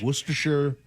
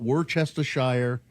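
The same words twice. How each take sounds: First: The word gets its usual, standard pronunciation. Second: The word gets an odd, nonstandard pronunciation. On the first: The speaker knows how to say the ingredient. The speaker calls it right. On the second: The speaker does not know how to say the ingredient. The speaker calls it wrong. "It's not"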